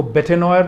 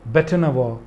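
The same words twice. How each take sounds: First: बेटेनॉयर said wrongly as bay-ten-oyer; wrong reading demo. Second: बेटनवॉ said bet-nuh-waa; correct pronunciation. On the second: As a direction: give the right बेटनवॉ after the wrong one. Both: Shown as a demonstration. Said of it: "इसको बेटेनॉयर नहीं पढ़ेंगे".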